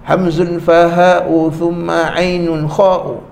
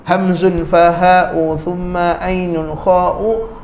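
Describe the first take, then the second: No difference in how they are said.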